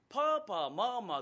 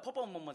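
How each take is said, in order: First: The vowels are drawn out long. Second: The vowels are short and clipped. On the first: "パーパーマーマーって伸ばすタイプ" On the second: "パパママじゃなくて"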